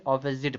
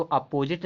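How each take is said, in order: First: "ऑपोजिट" as OP-uh-zit; "ऑपोजिट", first syllable open aw; correct pronunciation. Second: "अपोजिट" starting a-PO, long o second; rejected "अपोजिट", weak first vowel and full o; wrong pronunciation. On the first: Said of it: "पढ़ा जाता है". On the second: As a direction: say "अपोजिट" as a-po-jit. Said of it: "नहीं पढ़ते". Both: Shown as a demonstration.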